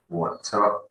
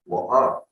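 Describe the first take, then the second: First: "water" with the middle T clearly sounded; true T. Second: "water" with the T stopped in the throat; glottal T. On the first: Teacher contrasts two waters, "water" with a true T. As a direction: pronounce the T in "water". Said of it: "there is a T in the middle". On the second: Teacher contrasts two waters, "water" with glottal stop. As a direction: drop the T in "water" for a catch in the throat. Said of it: "don't pronounce the T". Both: Shown as a demonstration.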